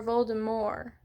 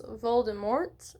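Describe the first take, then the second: First: "Voldemort" with the t left silent; silent final T. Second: "Voldemort" with the final t pronounced; final T sounded. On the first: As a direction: say "Voldemort" French-style, ending on the r. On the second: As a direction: say "Voldemort" ending on an audible t. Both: Shown as a demonstration. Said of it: "is it pronounced Voldemort or Voldemort".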